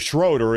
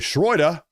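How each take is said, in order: First: The name has an English pronunciation. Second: The name has a German pronunciation.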